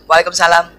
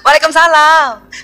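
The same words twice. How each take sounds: First: It is said in a plain, flat way. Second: It is said in a coquettish, pampered way.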